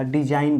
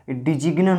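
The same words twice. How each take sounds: First: डिजाइन said as di-zine with a silent g; correct pronunciation. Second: डिजिग्न with the g sounded, as di-zig-na; a deliberately wrong डिजिग्न that voices the g; wrong pronunciation. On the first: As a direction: say डिजाइन cleanly, with no g sound. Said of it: "डिजाइन बोला जाता था". (डिजाइन, बिना g के सही उच्चारण) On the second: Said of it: "नहीं बोला जाता था". (डिजिग्न, g बोलते हुए गलत उच्चारण) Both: Shown as a demonstration.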